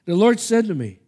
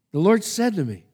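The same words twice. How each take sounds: The two takes are said the same way.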